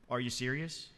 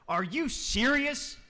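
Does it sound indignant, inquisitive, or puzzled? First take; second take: puzzled; indignant. First: It sounds puzzled, not getting the joke. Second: It sounds indignant and offended.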